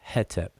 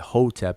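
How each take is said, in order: First: The first vowel sounds like 'eh'. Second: The first vowel sounds like 'oh'. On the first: This follows the scholars' short E convention. "instead of hetep" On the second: This is the common way people say it. "like we say hotep"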